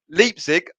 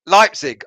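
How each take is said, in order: First: Leipzig said as "LEEP-sig" with a long ee; first vowel of Leipzig like "leap"; mispronounced Leipzig. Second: Leipzig said as "LIPE-sig", first vowel like "lie", a bit louder; firmly fix it to "LIPE-sig"; corrected Leipzig. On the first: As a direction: Leipzig with "lee" not "lie". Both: Shown as a demonstration. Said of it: "I said Leipzig".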